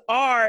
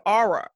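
First: "R" said as one clean syllable, "ar"; plain R. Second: "aura" as the letter R stretched to "ar-uh"; two-syllable R. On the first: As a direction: say "R" without any added ending. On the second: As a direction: add an "uh" after the R in "aura". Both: Shown as a demonstration. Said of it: "he says R instead of aura".

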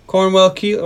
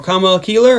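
First: Said in the usual way. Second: Cornwell said as "CAHM-well"; altered pronunciation. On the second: Acted. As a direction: drop the R in Cornwell, like "Cahmwell".

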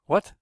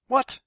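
First: Short, frowning "what"; brief puzzled query; frowning question. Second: Loud, high burst of "what"; sharp outburst of disbelief; vigorous. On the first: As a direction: ask it with a frown, understated. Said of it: "asked with a frown on his face". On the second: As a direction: fire it out as a vigorous, high-pitched demand. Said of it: "Carlos said vigorously". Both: A narrator's reading.

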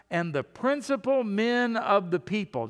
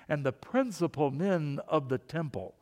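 First: Said in the usual way. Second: Mock snooty reading of a title; snotty voice. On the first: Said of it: "almost wanna say that with". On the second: Shown as a demonstration. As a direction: say it with mild, put-on snottiness. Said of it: "say that with a snotty voice".

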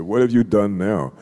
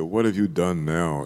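First: Louder, alarmed fatherly question, raised; the father presses harder, voice up; father's louder question. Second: Said in the usual way. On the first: Retold or imitated. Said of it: "He said". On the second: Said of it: "he said".

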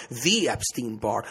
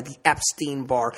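First: "the" drawn out slowly as "thee"; stress on THE. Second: Said in the usual way. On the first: Shown as a demonstration. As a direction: lean hard on "the", saying "thee". Name repeated with stressed article.

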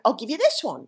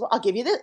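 First: Imitated Englishman's accent; English accent. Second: Said in the usual way. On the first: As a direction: put on a light English accent. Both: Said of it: "in his English accent".

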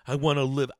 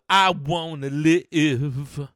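First: Said in the usual way. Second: Loud, very slow, drawn-out wail of words; dramatic outcry. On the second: Acted. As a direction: belt it out, stretching LIVE. Repeats it as an outcry.

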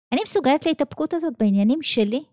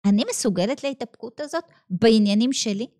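First: מסוגלת lifted, fast question rising at the end; quick, doubting question leaning on מסוגלת; stress on מסוגלת. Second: הזאת weighted with a falling tune, said steady; stress on הזאת. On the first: Teacher challenging herself aloud, fast, מסוגלת stressed and rising. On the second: Teacher asking her students, הזאת stressed with a falling close. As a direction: lean on הזאת and let the question fall. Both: Shown as a demonstration.

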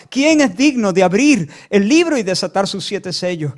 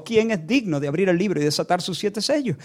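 First: Louder proclamation, imitating a shouting angel; angel's cry. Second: Said in the usual way. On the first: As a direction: call it out with force. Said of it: "el ángel gritaba y gritaba". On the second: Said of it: "clamaba con una potente voz".

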